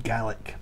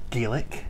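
First: "Gaelic" said with a short a, GAL-ik; Scottish pronunciation. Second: "Gaelic" said with a long ay, GAY-lik; Irish pronunciation. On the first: Guide naming Scotland's own language, "Gaelic" as GAL-ik. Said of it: "in Scotland you have". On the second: Guide contrasting the Irish language's name, "Gaelic" as GAY-lik. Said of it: "So in Ireland you have". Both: Shown as a demonstration.

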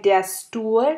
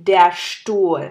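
First: Stuhl with plain English st, said slowly; wrong English st. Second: Stuhl with a heavy sht onset. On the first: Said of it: "আমরা কিন্তু বলি নাই". (ভুল উচ্চারণ, ইংরেজি স্ট দিয়ে Stuhl) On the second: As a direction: give Stuhl a weighted sht start. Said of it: "আমরা কিন্তু বলি নাই der Stuhl". (Stuhl এর st ভারী করে, শ্ট) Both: Shown as a demonstration.

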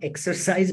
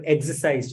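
First: Exercise said as the gym word, EK-ser-size; exercise, the wrong word. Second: Exorcised said as EK-sor-sized, as in driving out demons; exorcised pronounced like exorcism, not exercise; exorcised, the right word. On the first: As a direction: say exercise like working out, to contrast. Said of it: "not exercise". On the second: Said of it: "but exorcised". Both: Shown as a demonstration.

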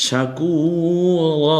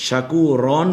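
First: শাকুরা chanted slowly with a long drawn final a; শাকুরা recited, the final a held; long alif ending. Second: শাকুরন said with a clipped -on ending; শাকুরন with a short nasal close; wrong ending. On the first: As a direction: draw out the last a of শাকুরা. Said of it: "যদি এটা থেমে যাওয়ার জায়গা হয়". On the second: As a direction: end শাকুরন on n, not a long a. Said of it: "শাকুরন বলবো না". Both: Shown as a demonstration.

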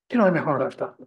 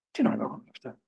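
First: Said in the usual way. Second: The same question dropped to a hushed whisper; a soft unvoiced repeat of the question; whispered echo. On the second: Shown as a demonstration. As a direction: breathe it out as if to yourself.

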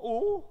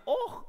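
First: "oh" as a plain open vowel; high, open "oh"; open "oh" option. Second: "oh" ending in a throaty ch, like och; high "oh" with a rasped ending; Scottish "oh" option. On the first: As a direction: let "oh" ring with no consonant ending. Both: Shown as a demonstration. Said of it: "Would that be".

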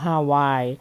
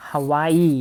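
First: Hawaii said the Thai way as ha-wai, two syllables; Thai pronunciation. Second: Hawaii said the English way as ha-WAI-ee, three syllables; English pronunciation. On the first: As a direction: Hawaii read as Thai ฮาวาย, ending in a clipped wai. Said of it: "คนไทยเราอ่านว่า Hawaii". (อ่าน Hawaii แบบคนไทยว่า ฮาวาย) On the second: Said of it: "we pronounce Hawaii as". (อ่าน Hawaii แบบภาษาอังกฤษว่า ฮะ-วาย-อี) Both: Shown as a demonstration.

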